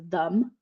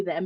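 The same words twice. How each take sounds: First: Them with an "uh" vowel, rhyming with hum; them as "thum". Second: Said in the usual way. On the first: Shown as a demonstration. Mother showing how her daughter says it, them as "thum". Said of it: "she says them". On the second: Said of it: "she doesn't say them".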